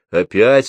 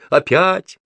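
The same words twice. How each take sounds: First: "Опять" as a louder rising question. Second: "Опять" pitched very high, climbing; exclaimed answer. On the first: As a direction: ask "Опять" with the voice lifting at the end. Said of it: "спросила крашеная тётка". (вопросительное «Опять» с подъёмом) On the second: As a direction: throw back "Опять" much higher, as an exclamation. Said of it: "ответила Груша". (высокое восклицание «Опять») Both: A narrator's reading.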